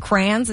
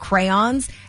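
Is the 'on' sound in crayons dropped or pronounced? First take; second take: dropped; pronounced. First: The 'on' sound is dropped. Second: The 'on' sound is clearly pronounced. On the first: The speaker calls it wrong. "people who say crayons" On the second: The speaker calls it right. "there's literally on in the word"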